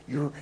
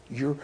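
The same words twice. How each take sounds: The two takes are said the same way.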